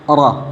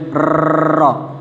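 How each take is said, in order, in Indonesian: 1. Huruf r hanya digulirkan ringan dan sebentar. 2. Huruf r digetarkan dengan banyak ketukan berulang. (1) "Tapi Ra" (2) "Tidak boleh Ra, salah"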